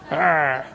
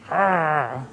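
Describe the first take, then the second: First: Second, weaker try at a low wolf arr; half-hearted wolf growl. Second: Lightly growled low arr like a wolf; a hint of a wolf's growl. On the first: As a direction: growl again, a bit feebly. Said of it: "That's not very good". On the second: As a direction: growl like a wolf, half-joking. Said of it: "That's me growling like a wolf". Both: Shown as a demonstration.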